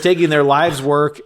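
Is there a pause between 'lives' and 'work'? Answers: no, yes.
no. It is read quickly with no pause after 'lives'. People were taking the work of a lifetime. The speaker calls it right.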